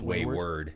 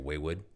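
First: The second syllable is said with an r. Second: The second syllable is said without an r. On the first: The speaker calls it right. "But it's Wayward" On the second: The speaker calls it wrong. "If you're from New York or if you're a toddler, you would probably say Waywood"

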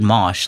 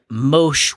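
First: The vowel sounds like the one in 'mosh pit'. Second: The vowel sounds like the one in 'mobile'. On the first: The name is read as the ordinary word. "like a mosh pit" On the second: The name is read as short for a longer term. "Mosh would be mobile shell"

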